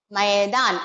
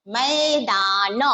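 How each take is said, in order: First: Said in the usual way. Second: मैदान stretched slowly on the ऐ; teacher's slow मैदान; slow drawn demo. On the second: Shown as a demonstration. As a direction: pull out मैदान.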